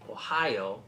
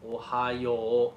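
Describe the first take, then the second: First: It has three syllables, stressed on 'high'. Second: It has four syllables with no stress on 'high'. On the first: The speaker calls it wrong. "Ohio is three syllables and with the emphasis on high. You don't want to say it that way" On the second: The speaker calls it right. "It's actually four syllables"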